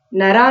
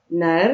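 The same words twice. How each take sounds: First: नरा with a full aa sound added after र; wrong reading. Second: नर said as two syllables, na-r, no vowel after र; correct reading. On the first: Teacher shows pupils the wrong reading नरा. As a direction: read it wrongly as नरा, stretching the end. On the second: Teacher shows pupils the right way to read नर. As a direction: end नर on a bare र sound. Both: Shown as a demonstration. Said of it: "नरा नहीं कहना".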